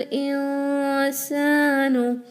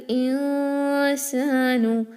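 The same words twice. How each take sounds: Both takes have the same delivery.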